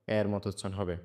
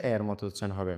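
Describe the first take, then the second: No difference in how they are said.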